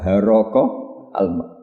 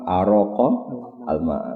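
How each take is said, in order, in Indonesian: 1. Kata pertama dimulai dengan bunyi h. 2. Kata pertama dimulai dengan hamzah.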